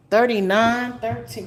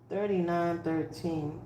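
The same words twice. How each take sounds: First: Said in the usual way. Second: Much softer and slower; quiet repeat. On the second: Real, not acted. Reader repeating the numbers for Scorpio, soft and slow. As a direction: murmur the numbers again.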